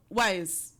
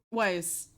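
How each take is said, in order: Both takes have the same delivery.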